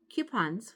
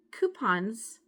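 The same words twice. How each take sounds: First: "coupons" as KYOO-pons; other way of saying coupons. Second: "coupons" as KOO-pons; first way of saying coupons. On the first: Vlogger offering both ways of saying it, "coupons" as KYOO-pons. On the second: Vlogger offering both ways of saying it, "coupons" as KOO-pons. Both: Shown as a demonstration. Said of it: "whichever way you say it".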